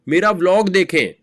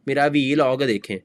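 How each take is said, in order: First: Vlog is said as one syllable. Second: Vlog is said as two syllables, vee log. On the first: The speaker calls it right. "It's व्लॉग।" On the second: The speaker calls it wrong. "It's not वी लॉग।"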